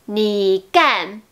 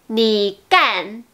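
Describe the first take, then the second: No difference in how they are said.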